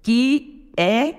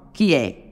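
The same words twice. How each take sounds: First: "que é" split into two syllables with a gap between; duas sílabas. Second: "que é" run together as one syllable, low; uma sílaba. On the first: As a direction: say "que", pause, then "é", higher. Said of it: "duas sílabas gramaticais". ("que é" separado em duas sílabas) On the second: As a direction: glide "que é" into a single falling beat. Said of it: "sílaba poética é só uma". ("que é" juntado numa sílaba só) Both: Shown as a demonstration.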